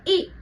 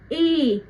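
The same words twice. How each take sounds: First: The ee vowel is short and quick. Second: The ee vowel is slow, gliding into ah. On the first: "एकदम जल्दी" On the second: "हल्का सा धीरे बोला, उसके बाद हल्का सा आ आ गया"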